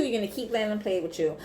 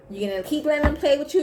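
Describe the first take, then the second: First: Fast, falling on "play with you"; knowing statement. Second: High, fast, rising on "play with you"; challenging question. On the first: Reader restating it to Taurus, as a falling statement. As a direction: state it as a fact, dropping to the end. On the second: Reader challenging Taurus, as a high rising question. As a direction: throw it out as an incredulous question, lifted to the end. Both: Real, not acted.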